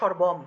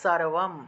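First: The first sound is a 'sh' sound. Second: The first sound is a clear 's' sound. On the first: This is the everyday Bengali way of saying it. "দন্তস্ব থাকলে বাংলায় বললে তো সর্বম" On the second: This is the Sanskrit way of saying it. "কিন্তু সংস্কৃতে বললে সারবম"

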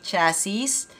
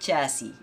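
First: The final s is pronounced at the end. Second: The final s is silent at the end. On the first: The speaker calls it wrong. "It shouldn't be chassis" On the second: The speaker calls it right. "Silent S sa huli"

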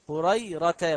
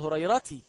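First: The word ends with an 'a' vowel. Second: The word ends with a non-'a' vowel. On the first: The speaker calls it right. "انظر إلى الفتح" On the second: The speaker calls it wrong. "ولا تقل هريرتي"

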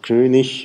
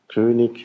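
First: The ending -ig sounds like ich. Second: The ending -ig does not sound like ich. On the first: "Standarddeutsch, norddeutscher Prägung ist eben ich" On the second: "in Süddeutschland sagt man das nicht, da sagt man eher König"

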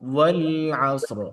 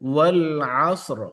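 No difference in how they are said.

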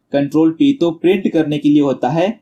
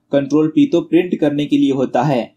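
No difference in how they are said.

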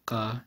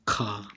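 First: The consonant has no puff of air after it. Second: The consonant has a puff of air after it. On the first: "instead of saying ka" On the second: "you're aspirating the uvular plosive"

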